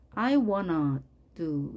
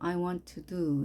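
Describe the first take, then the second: First: 'Want to' is reduced to 'wanna', American style. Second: 'Want to' is said in full, British style. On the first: "이 발음은 미국식 발음이고요" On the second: "영국식은 그대로 I want to do 이렇게"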